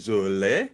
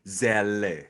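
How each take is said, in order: First: The first vowel is a German umlaut sound. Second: The first vowel is a plain English e sound. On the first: The speaker calls it right. "E di sini itu sebenarnya uh, titik dua di sini. Jadi Zole" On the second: The speaker calls it wrong. "banyak orang Amerika yang menggantinya menjadi Zelle gitu"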